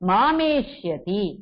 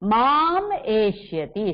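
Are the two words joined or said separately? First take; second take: joined; separately. First: The two words run together as one word. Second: The two words are said separately, split apart.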